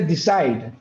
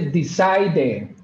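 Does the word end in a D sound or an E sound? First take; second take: D sound; E sound. First: The word ends with a D sound, no vowel. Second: The word ends with an audible E vowel. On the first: The speaker calls it right. "se dice decide" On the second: The speaker calls it wrong. "no se dice decide"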